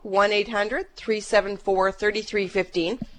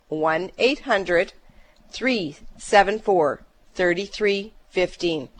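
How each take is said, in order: First: The number is said fast. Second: The number is said slowly.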